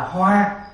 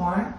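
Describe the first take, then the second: First: The tone stays level and flat. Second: The tone rises high and sharply. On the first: A flower. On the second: Transforming or changing.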